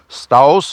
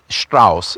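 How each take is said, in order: First: It begins with a plain st sound. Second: It begins with a sht sound. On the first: The speaker calls it wrong. "it's not Strauss or Strauss or whatever" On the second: The speaker calls it right. "S T makes the st sound"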